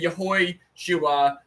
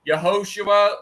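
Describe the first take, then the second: First: The middle vowel is an 'oi' sound. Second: The middle vowel is a plain 'o' sound. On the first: "like Chips Ahoy, make the oi sound"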